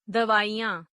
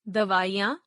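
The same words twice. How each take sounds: First: दवाइयां with a long "ee" before y; mispronounced. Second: Said in the usual way. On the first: Shown as a demonstration. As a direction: say दवाइयां as "davaa-ee-yaan". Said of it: "अशुद्ध". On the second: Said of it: "शुद्ध".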